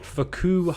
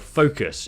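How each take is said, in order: First: It is pronounced with a French accent. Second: It is pronounced with an English accent.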